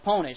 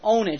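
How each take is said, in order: First: The word starts with a P sound. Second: The word starts without a P sound. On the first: This is how the speaker's own group says it. "So we pronounce the P" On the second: This is how another group says it. "they pronounce it Ownage"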